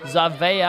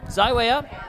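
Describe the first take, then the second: First: The W is sounded as a V. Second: The W is sounded as an English W.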